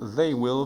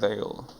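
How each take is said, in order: First: Both words are said fully and separately. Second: The words merge into one short syllable. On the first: "Full form" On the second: "a pronúncia das contrações"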